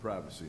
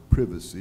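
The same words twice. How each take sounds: First: The word is said the American way. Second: The word is said the British way.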